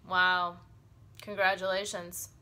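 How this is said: The voice sounds flat and unimpressed. The speaker disapproves or is not impressed. "It might show that she's not so impressed"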